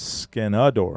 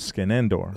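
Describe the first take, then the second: First: The name has no second N sound. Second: The name has a second N sound. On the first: This is how the military wrote the name down. "they wrote it down as Skenador, how you're pronouncing it. ... no second N" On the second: This is the original form of the family name. "I'm Skenendor"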